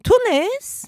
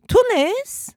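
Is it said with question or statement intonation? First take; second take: question; question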